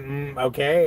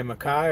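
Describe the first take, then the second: First: "okay" opened with a hummed mm; mm-okay reading. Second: "Mackay" ending in a rhyme with eye; Mackay reading. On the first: Streamer asking a chatter what they meant, hummed mm before "okay". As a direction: say "okay" as mm-okay, rising at the end. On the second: Streamer offering a chatter another reading, "Mackay" said to rhyme with eye. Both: Shown as a demonstration. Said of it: "are you trying to say Mackay".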